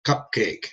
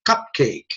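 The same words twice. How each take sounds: First: Lower, softer echo of the test word; patient repeating. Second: Lightly acted tester presenting a test word; tester prompting. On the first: Acted. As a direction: lightly play a listener repeating it back. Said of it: "and the guy says". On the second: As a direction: give the word for someone to echo. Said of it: "and they'll say".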